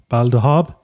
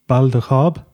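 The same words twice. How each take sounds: Both takes have the same delivery.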